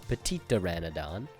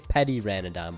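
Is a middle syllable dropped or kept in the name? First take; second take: kept; dropped. First: Every syllable of the name is said. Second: A middle syllable is dropped from the name. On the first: The speaker calls it right. "but it's Petitoranodon" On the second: The speaker calls it wrong. "I sometimes I just say Petiranodon"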